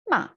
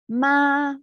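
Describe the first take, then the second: First: The pitch falls sharply, and the syllable is short. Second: The pitch stays high, level and long. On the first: "short, falling" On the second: "high and long"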